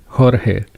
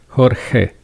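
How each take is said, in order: Both takes have the same delivery.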